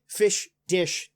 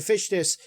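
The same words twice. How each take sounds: First: "fish dish" said as two separated words; "fish dish" carefully spaced like a tongue twister; tongue-twister repeat. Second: Said in the usual way. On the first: Shown as a demonstration. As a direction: test "fish dish" slowly, word by word. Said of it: "you can make a tongue twister with this". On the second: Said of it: "you can make a tongue twister".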